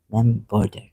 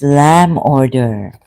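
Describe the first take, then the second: First: The second word begins with a B sound. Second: The second word begins with a vowel sound. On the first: The speaker calls it wrong. "It's not Lamb Border" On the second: The speaker calls it right. "It's Lamb Order"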